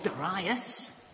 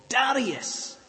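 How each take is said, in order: First: The name is said in a posh way. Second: The name is said in a plain way.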